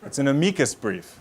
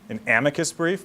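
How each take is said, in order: First: It uses a classical Latin-style pronunciation. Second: It uses the anglicized legal-English pronunciation. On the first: The speaker calls it right. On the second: The speaker calls it wrong.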